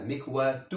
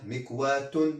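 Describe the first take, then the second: First: مكواة ending in a short -u, "mikwatu"; single damma ending. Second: مكواة ending in -un, "mikwatun"; double damma ending. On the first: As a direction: say مكواة with final -tu, no n. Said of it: "ضمة واحدة". (مكواة بضمة واحدة في آخرها) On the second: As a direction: sound the final n in مكواة after u. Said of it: "ضمتان". (مكواة بتنوين الضم في آخرها) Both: Shown as a demonstration.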